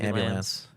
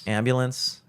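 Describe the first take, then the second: First: It is said with a local Baltimore pronunciation. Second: It is said with the standard pronunciation. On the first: This is how the speaker naturally tends to say it. The speaker calls it wrong. "always want to saying ambulance" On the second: This is how the word is supposed to be said. The speaker calls it right. "That's how I know I should say it"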